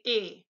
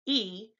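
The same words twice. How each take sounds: First: E said as a pure 'ay', the German letter name. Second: E said as a long 'ee', the English letter name. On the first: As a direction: say E the German way, like 'eh'. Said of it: "they say E". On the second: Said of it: "We say E". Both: Shown as a demonstration.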